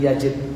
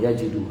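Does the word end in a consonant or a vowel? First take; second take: consonant; vowel. First: The word ends on the consonant d. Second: The word ends with an added u vowel. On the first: The speaker calls it right. "harusnya di sini yajid" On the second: The speaker calls it wrong. "Bukan yajidu, harusnya jazm"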